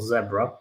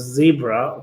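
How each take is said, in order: First: Zebra is said the English way. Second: Zebra is said the American way.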